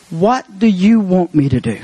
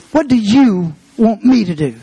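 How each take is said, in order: First: Said in the usual way. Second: "you" hit hard, a pause, then "me" leaned on; stress on YOU and ME. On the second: Shown as a demonstration. Preacher repeating Saul's question to God, stress on "you" and "me". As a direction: punch "you", then set "me" apart.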